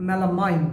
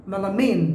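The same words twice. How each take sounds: First: "melamine" ending in -mine, like the word mine; mistaken pronunciation. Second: "melamine" ending in a long -meen; correct pronunciation. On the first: Teacher showing what not to say, mistaken pronunciation. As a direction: end "melamine" with an eye sound, MEL-a-mine. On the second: Teacher modelling the right word, correct pronunciation. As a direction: end "melamine" with an ee sound, MEL-a-meen. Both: Shown as a demonstration.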